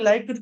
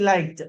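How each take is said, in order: First: The ending is pronounced with a d sound. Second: The ending is pronounced with a t sound. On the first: The speaker calls it wrong. "లైక్డ్ లైక్డ్ కాదు" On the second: The speaker calls it right. "టాలో చెప్పాలి"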